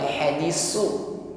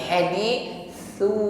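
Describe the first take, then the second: First: The middle consonant is a hissing s sound. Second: The middle consonant is a soft breathy th. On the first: The speaker calls it wrong. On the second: The speaker calls it right. "tetapi hadithu, nafas yang berhembus tipis"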